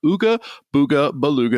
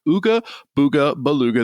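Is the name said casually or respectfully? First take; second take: casually; casually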